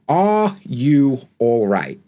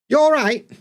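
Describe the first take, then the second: First: Every word is said, including the opening 'are'. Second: The opening 'are' is dropped or heavily reduced. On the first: This is the complete, correct form of the question. "the full sentence would be" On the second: This is the casual way native speakers really say it. "we don't say things as they should be. And you get"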